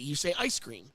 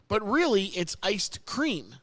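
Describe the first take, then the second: First: Said quickly with no D sound after ice. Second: Said carefully with a D sound after ice. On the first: A casual, lazy way of saying it. "When you say it fast and lazy" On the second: The true, full form of the term.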